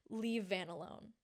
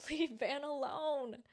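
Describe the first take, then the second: First: Said in the usual way. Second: Pleading through a laugh, a little higher; laughing plea. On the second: Real, not acted. To the show writers, a laughing plea. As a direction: laugh while you beg them.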